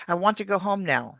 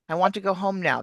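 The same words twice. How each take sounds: Both takes have the same delivery.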